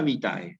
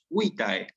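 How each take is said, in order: First: The stress is on the last syllable. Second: The stress is on the first syllable. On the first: The speaker calls it wrong. "pero nunca vitae, no existe eso en latín" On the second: The speaker calls it right. "hay que decirlo bien, es vitae"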